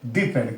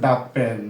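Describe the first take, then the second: First: 'The' is said with a long 'ee' vowel. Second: 'The' is said with a short 'uh' vowel. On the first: The speaker calls it wrong. "Not দি pen" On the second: The speaker calls it right. "এখানে আমাদের হচ্ছে দা pen"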